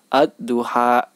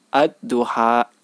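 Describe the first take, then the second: The two takes are said the same way.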